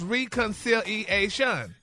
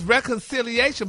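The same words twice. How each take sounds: First: The first syllable sounds like 'ree'. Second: The first syllable sounds like 'reh'. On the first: "but it's pronounced reconciliation" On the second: "the word is reconciliation"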